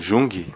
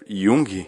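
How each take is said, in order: First: The name begins with a 'j' sound. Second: The name begins with a 'y' sound. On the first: The speaker calls it wrong. "não Jung" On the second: The speaker calls it right. "o mais certo"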